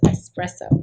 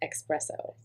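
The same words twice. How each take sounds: First: It is said with an s sound, no k. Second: It is said with a ks sound, like x. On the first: The speaker calls it right. "there's not an X in espresso, so it's espresso" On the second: The speaker calls it wrong. "It's not espresso"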